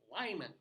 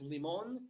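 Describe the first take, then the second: First: The name is said with English-style vowels. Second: The name is said with Spanish-style vowels. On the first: This is how the locals say it. "No, no, it's Lyman" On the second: This follows the word's Spanish origin. "It should be pronounced limon"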